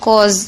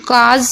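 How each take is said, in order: First: The vowel is a rounded 'aw' sound. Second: The vowel is an open 'aa' sound. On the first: "ए यू को ओ पढ़ते हैं" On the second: "काज या कॉज दोनों तरीके से आप इसे पढ़ सकते हैं"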